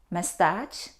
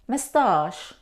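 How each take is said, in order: First: It ends with a 'ch' sound as in chair. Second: It ends with an 'sh' sound. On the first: The speaker calls it wrong. "No. Though we see the combination C and H, we don't pronounce ch" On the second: The speaker calls it right. "We pronounce sh"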